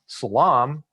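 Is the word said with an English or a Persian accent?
English. The word is said with an English accent. "instead of saying you know salam"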